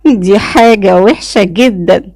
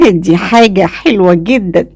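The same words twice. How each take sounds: First: Slow, mildly rueful drawn-out words; regretful. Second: Mildly enthusiastic; a touch of eager approval. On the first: Woman after suitor threatens her tongue, regretful. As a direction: draw it out with dismayed regret. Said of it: "وقلت بحسرة". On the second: Woman pleased by suitor's reply, enthusiastic. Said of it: "وقلت بحماس". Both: A narrator's reading.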